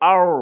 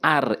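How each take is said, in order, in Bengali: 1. r ধ্বনিটি মোটা করে বলা হয়, ঠোঁট গোল করে। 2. r ধ্বনিটি পাতলা করে বলা হয়, ঠোঁট গোল করা হয় না। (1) "মুখ পুর করে ... মুখ গোল করে পুর করে মোটা করে" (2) "এভাবে অনেকেই ভুল বলে"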